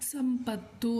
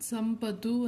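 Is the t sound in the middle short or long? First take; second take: long; short. First: The middle t sound is long and doubled. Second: The middle t sound is short and single. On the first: The speaker calls it right. "ಸಂಪತ್ತು ಅಂತ ಹೇಳಿದ್ದೀವಿ, ಹಾಗಾಗಿ ತಾಗೆ ತಾವತ್ತು ಕೊಡಬೇಕು" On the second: The speaker calls it wrong. "ಸಂಪತ್ತು ಅಂತ ಹೇಳಿಲ್ಲ"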